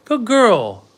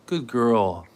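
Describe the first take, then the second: First: Much higher, louder sing-song praise; high dog praise. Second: Said in the usual way. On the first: Real, not acted. Owner praising her dog Annie, high and gushing. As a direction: gush over the dog in a high voice.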